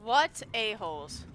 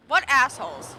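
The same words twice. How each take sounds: First: Said in the usual way. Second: Louder, full swear spoken out; saying the swear loudly. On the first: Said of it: "You know what? I'll say the word". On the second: Real, not acted. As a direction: say it loud, uncensored. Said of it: "I'll say the word".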